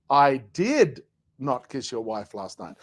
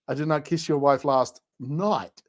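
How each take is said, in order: First: The stress falls on the word did. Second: The stress falls on the word night.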